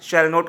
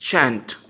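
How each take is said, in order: First: It is said as two full separate words. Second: It is said as one short contracted word. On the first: "shall not का बनता है shan't" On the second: "shall not का बनता है shan't"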